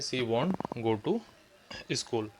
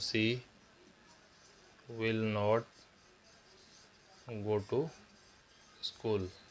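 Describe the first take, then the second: First: The negative is contracted into one short word. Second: The negative is said as two full words. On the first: "विल नॉट की जगह हम वॉन्ट भी बोल सकते हैं" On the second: "इसको बोलेंगे हम सी विल नॉट go to school"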